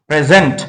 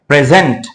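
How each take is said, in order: First: The stress is on the second syllable. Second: The same.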